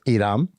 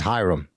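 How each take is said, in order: First: The name is said with a Spanish pronunciation. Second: The name is said with an English pronunciation. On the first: "In Spanish, it's pronounced Iram" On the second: "pronounced properly"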